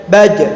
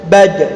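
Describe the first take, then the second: First: The final consonant is cut off and held. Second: The final consonant is cut off and held.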